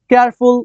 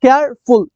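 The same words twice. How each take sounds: First: Said in the usual way. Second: careful split into care, ফুল; two separate syllables. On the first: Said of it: "two syllable". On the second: Shown as a demonstration. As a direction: break careful before ফুল. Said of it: "double, ঠিক আছে?".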